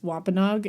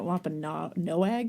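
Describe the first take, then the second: First: The name is said in its usual pronunciation. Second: The name is sounded out following its spelling. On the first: The speaker calls it right. "they usually pronounce Wampanoag, Wampanoag as Wampanoag" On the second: The speaker calls it wrong. "I was pronouncing it Wampanoag ... I chose to pronounce it like phonetically"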